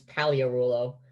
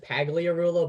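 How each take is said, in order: First: The G in the name is silent. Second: The G in the name is sounded. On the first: The speaker calls it right. "silent G" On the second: The speaker calls it wrong. "it looks like it says"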